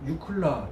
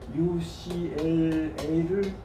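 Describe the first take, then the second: First: The name is said as one word. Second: The name is spelled out letter by letter.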